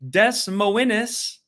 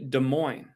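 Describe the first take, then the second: First: The name is said in a popular variant. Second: The name is said in its standard pronunciation. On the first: The speaker calls it wrong. "Is how some people pronounce it" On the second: The speaker calls it right. "but it's actually Des Moines"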